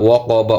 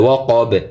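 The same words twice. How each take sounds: First: ওয়া ক বা ending on an open short a; full final vowel. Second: ওয়া ক বে closed on a bounced b, no a; stopped ending. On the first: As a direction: voice the a after the b of বা. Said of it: "জবরের উচ্চারণ শেষ হবে না". (ওয়া ক বা-র শেষে জবর উচ্চারণ) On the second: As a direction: stop on the b of বে, dropping its vowel. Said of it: "অকফ করলে". (ওয়া ক বে-তে থেমে জবর বাদ) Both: Shown as a demonstration.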